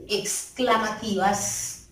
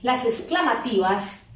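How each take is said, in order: First: "exclamativas" said slowly, every syllable marked; slow emphasis. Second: Said in the usual way. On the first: Shown as a demonstration. ("exclamativas" despacio, marcando cada sílaba)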